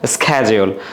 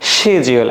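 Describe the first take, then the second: First: The word begins with an 'sk' sound. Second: The word begins with an 'sh' sound. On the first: "আমেরিকানরা কি বলে?" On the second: "ব্রিটিশে কি বলে?"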